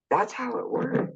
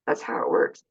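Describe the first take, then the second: First: "That's how it works" with a high rising lift on how; emphatic repeat. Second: "That's how it works" whispered, no voice; whispered repeat. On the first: Driving the point home to viewers, "That's how it works" lifted on how. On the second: Telling viewers the trick, "That's how it works" whispered. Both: Shown as a demonstration.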